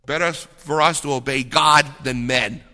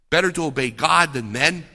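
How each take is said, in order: First: Peter's answer stated firmly with a falling end, stress on God; firm declaration. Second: Same line turned into a question, rising at the end; preacher challenging listeners, questioning rise; rhetorical question. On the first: Acted. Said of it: "what does Saint Peter say". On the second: Shown as a demonstration. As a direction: ask it back at the crowd, lifting on men. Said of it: "rhetorical question to listeners".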